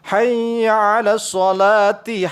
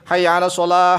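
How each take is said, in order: First: The last word ends with a "ti" sound. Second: The last word ends with an "h" sound. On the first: The speaker calls it right. "dibaca ti" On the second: The speaker calls it wrong. "Jangan begini"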